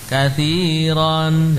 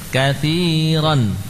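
First: The final vowel is drawn out long. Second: The final vowel is kept short. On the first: The speaker calls it wrong. "Bukan katsiran, jangan" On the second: The speaker calls it right. "pendek saja"

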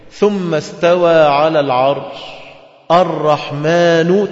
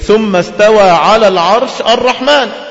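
First: The pause comes before the final word. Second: The pause comes after the final word. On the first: The Most Merciful begins a new sentence. "تبقى مبتدأ" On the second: The Most Merciful is the subject of rising over the Throne. "استوى الرحمن على العرش وتقف على كده"

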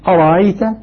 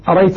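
First: The second glottal stop is softened, not fully closed. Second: The second glottal stop is left out entirely. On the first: "نافع يسهل الهمزة يبقيها لكنها مسهلة" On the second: "الكسائي يقرأ بدون همزة ثانية"

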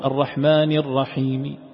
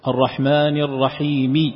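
First: The final vowel is only faintly, partially pronounced. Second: The final vowel is pronounced fully and clearly. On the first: "لكن بالروم الرحمن الرحيم يسمعها القريب والبعيد لا يسمعها" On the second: "هذه إذا قرأت مكسورة"

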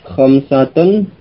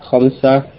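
First: The word ends with a sounded -tun ending. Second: The word ends in -ah without -tun. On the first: The word is read with its grammatical case ending. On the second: The word is read plainly without its case ending.

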